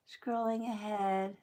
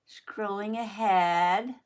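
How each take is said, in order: First: Said in the usual way. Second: Slow, louder, stretched with a rising end; drawn-out announcement. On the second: Acted. Telling viewers the video jumps ahead, slow and stretched.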